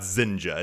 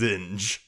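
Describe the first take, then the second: First: The name ends with an extra vowel sound. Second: The name ends on the consonant sound. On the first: This is the audiobook's pronunciation. The speaker calls it wrong. "Not Zinja" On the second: This is the pronunciation used in most videos. The speaker calls it right. "it's Zinj"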